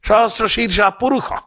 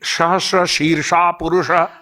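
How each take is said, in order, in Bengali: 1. মূর্ধন্য স-এর ধ্বনি 'kh'-এর মতো বলা হয়। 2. মূর্ধন্য স-এর ধ্বনি 'sh'-এর মতো বলা হয়। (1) "ওরা বলে" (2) "আমরা যখন স্নান মন্ত্র বলি"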